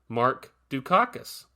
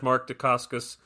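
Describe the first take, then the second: First: The surname is said like Dukakis. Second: The surname is said like Dacascos. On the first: The speaker calls it wrong. "I've been pronouncing his name wrong my entire life. I used to say Mark Dukakis" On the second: The speaker calls it right. "I apologize"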